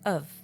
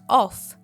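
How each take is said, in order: First: Weak schwa vowel and a final V sound. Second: Full vowel and a final F sound. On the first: The speaker calls it right. "The F sound turns into V, and we have the schwa sound there" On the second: The speaker calls it wrong. "So not of"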